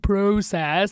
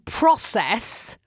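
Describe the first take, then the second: First: The word is said a non-American way. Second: The word is said the American way. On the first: This is the speaker's own habitual way of saying it. "it feels really strange to say process" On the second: This is how the people around the speaker say it. "Americans saying process"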